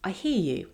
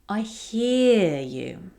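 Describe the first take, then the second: First: It is said plainly, without stretched vowels. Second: It is warm, with the vowels stretched.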